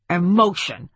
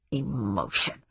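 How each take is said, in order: First: Snapped, scornful retort; curt, irritated interjection. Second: Low, quiet grumble; lower, softer scornful mutter. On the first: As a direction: throw the word back irritably. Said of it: "snapped Speidel". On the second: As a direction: mutter it disdainfully to yourself. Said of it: "muttered Speidel". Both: A narrator's reading.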